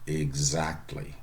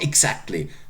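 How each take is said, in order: First: The x is said as voiced gz. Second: The x is said as voiceless ks. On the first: The speaker calls it right. "Vowel sound following. Voiced" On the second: The speaker calls it wrong. "It's not exactly"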